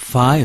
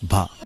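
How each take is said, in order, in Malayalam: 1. ഇത് ശ്വാസം ചേർന്ന ഘോഷമില്ലാത്ത 'ph' ശബ്ദത്തിലാണ് തുടങ്ങുന്നത്. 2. ഇത് ശ്വാസം ചേർന്ന ഘോഷമുള്ള 'bh' ശബ്ദത്തിലാണ് തുടങ്ങുന്നത്. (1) "ഫ അല്ല"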